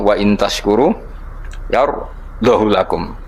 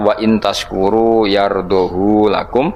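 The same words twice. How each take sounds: First: The vowel after 'yardoh' is kept short. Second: The vowel after 'yardoh' is drawn out long. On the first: "tampa isba" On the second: "sertane isba berarti normal"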